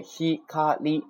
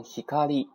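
First: ひかり slow and high, each kana separate. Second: Said in the usual way. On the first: Shown as a demonstration. Teacher shows what forms the word, ひかり syllable by syllable. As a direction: break ひかり into three even beats. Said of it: "构成". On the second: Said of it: "读成ひかり啊".

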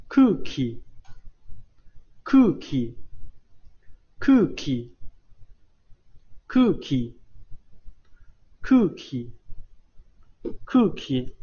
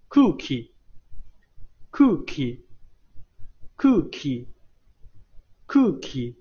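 First: Said in the usual way. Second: Cookie drawn out very slowly, u barely voiced; 非常缓慢地读cookie，乌不发音; slow cookie drill. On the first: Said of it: "是不发音的". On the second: Shown as a demonstration. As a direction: stretch cookie for learners to copy. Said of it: "注意这个“乌".

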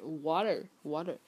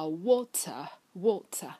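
First: "water" with tapped t and curled r; American pronunciation. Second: Slow "water" with crisp t, no final r; British pronunciation. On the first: Teacher contrasts American with British, tapped rhotic "water". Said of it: "还有美音呢，就是". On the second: Teacher gives water as example, crisp British "water". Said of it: "还有美音呢". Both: Shown as a demonstration.

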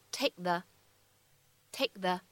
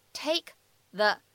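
First: "take the" with the k held, unreleased; incomplete plosion. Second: Said in the usual way. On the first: Shown as a demonstration. Teacher showing learners incomplete plosion in "take the". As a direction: stop the k of "take" silently before "the". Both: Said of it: "会有一个不完全爆破".

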